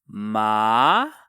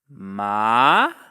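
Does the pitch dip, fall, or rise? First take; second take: rise; rise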